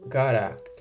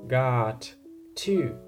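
First: It is run together as one reduced word. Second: It is said as two separate full words.

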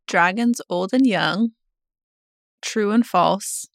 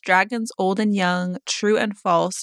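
First: It is read slowly. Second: It is read at normal speed.

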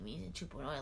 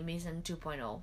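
First: It is said in a gloomy, self-pitying tone. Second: It is said in a positive, upbeat tone. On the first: The new self is lamented. "I'm not saying, like, oh, me" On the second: The new self is embraced. "I'm not saying that in a negative way"

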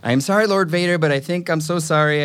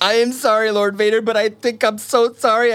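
First: It is said in a plain natural voice. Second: It is said in an exaggerated acted voice. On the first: "without all the weird acting" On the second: "say that again without all the weird acting"

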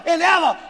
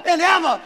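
The two takes are said the same way.

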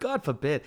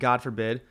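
First: It is said in an Italian-American accent. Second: It is said in a plain, everyday accent. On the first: The speaker calls it right. "but you're like" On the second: The speaker calls it wrong. "like in a normal accent"

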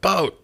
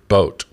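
First: It is said loudly, as an exclamation. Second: It is said flatly, without emphasis.

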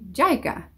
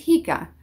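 First: The name begins with a y sound. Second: The name begins with a soft h sound. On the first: "no va a leer esa J como una H, sino como una Y" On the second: "my name is Jica"

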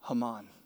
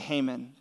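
First: The name is said the Hebrew way. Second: The name is said the American way. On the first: This is the authentic pronunciation. "how do you say this? And he goes" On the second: This is how Americans usually say it. "but you Americans say Haman"

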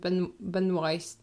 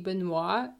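First: The name ends with an audible s sound. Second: The name ends without an s sound. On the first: This is how the family says it. "her family pronounced it Benoist" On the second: This is the expected French-style form. "it's supposed to be Benoit"

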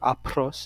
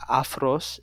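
First: The consonant after the first vowel is p. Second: The consonant after the first vowel is f. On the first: "if you want to say it with like a p instead of a phi" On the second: "which is aphros in Greek"

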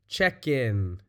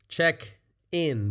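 First: The k sound links onto the second word. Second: The two words are said separately. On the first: "the way we say it, We kind of move that K, over to the beginning of the in" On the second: "Two words there, a phrasal verb"

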